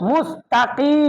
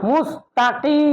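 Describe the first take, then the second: Both takes have the same delivery.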